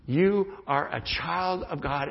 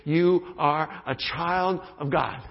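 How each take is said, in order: First: Slow repeated assurance; sincere affirmation. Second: Slow, deliberate affirmation; sincere affirmation. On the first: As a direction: say it again, gently and slowly. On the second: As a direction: lay each word down slowly. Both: Shown as a demonstration. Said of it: "we just affirmed those truths".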